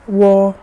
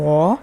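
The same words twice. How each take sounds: First: The pitch stays high and level. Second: The pitch dips low, then rises. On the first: "if it's the first one" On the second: "if it's the third sound"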